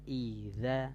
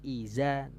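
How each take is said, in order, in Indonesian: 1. Konsonannya bunyi th yang lembut. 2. Konsonannya bunyi z yang mendesis. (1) "harusnya kan iza" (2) "sama ini juga wan nahari iza"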